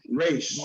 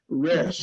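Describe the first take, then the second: First: The vowel glides into a 'y' sound. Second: The vowel is a plain 'eh' sound. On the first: The speaker calls it right. "squeeze a little y between that e and a" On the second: The speaker calls it wrong. "We will have a tendency to say resh"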